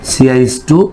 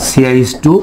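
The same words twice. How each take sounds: The two takes are said the same way.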